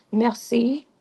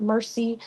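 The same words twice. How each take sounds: First: "merci" said the French way, throaty r and stress on "ci"; throaty French "merci", the right version. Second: "mercy" said the English way, like the word for pity; flat English "mercy", the wrong version. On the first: Teacher showing learners the right way, throaty French r. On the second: Teacher showing learners how not to say it, English sound. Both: Shown as a demonstration. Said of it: "that little guttural situation going on".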